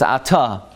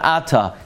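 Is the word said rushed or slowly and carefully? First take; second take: slowly; rushed. First: The word is said slowly and carefully. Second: The word is rushed and slurred. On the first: The speaker calls it right. "slow enough that you're actually saying the words" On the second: The speaker calls it wrong. "every single word was mispronounced"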